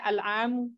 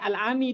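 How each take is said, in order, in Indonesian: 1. Kata itu berakhir dengan vokal 'u'. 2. Kata itu berakhir dengan vokal 'i'. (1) "Nggak boleh al-amu" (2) "nggak boleh al-ami di sini karena nggak ada huruf jernya"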